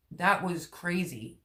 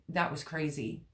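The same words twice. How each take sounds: First: "That was crazy" drawn out, leaning on "That"; slow emphatic repeat. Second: Said in the usual way. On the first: Real, not acted. Vlogger recalling a hard summer, slow emphatic "That was crazy".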